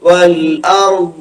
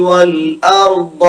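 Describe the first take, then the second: Both takes have the same delivery.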